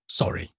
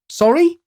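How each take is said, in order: First: The voice drops low and final at the end. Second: The word rises at the end like a question. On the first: It closes the exchange with finality. "My voice had sunk too far at the end" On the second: It is asked as a question. "I took the question out of it"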